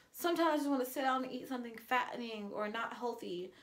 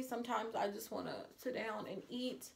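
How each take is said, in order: First: Said in the usual way. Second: Choking up. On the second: Real, not acted. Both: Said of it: "I'm sorry".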